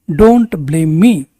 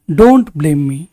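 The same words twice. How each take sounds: First: Very slow, stretched words; slow, clear repetition. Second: Said in the usual way. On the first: Shown as a demonstration. Teacher repeating for students, slow and deliberate. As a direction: lay out every word slowly. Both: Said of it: "teacher models sentence twice".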